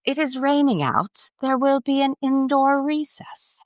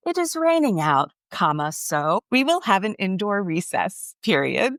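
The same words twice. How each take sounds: First: High, prim British announcer voice; secretary's British announcement; British accent. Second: Much higher, mock British child voice; a third grader copying a British accent, reading punctuation aloud; British accent, proud child; kid's British accent. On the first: Retold or imitated. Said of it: "and she's British". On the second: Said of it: "in his British accent".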